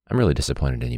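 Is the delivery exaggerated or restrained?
restrained. The line is said in a restrained, understated way. The emotion does not come across. The speaker calls it wrong. "And he was like, I don't feel it"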